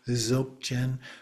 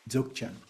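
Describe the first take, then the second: First: The word begins with a plain z sound. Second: The word begins with a d touch before z. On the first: "we often just pronounce it as if it starts with the Z" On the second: "it starts with a preliminary, like you're going to say a D"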